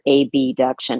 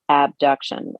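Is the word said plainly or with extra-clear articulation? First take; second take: clear; plain. First: The first part is articulated with extra clarity. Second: The word is said in its ordinary way.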